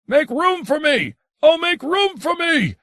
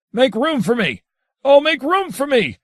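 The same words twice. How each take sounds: First: Much higher, booming cry, rising further on the second. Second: Much higher, louder cry rising on the second line; thundering cry. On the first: Adrian of the Mountain before vanishing, booming cry. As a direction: boom it out like a mountain. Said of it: "Adrian Mountain boomed". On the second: Adrian of the Mountain in transport of passion, thundering cry. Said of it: "cried out in a voice that had its own crackling thunder". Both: A narrator's reading.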